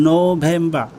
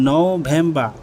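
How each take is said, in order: No difference in how they are said.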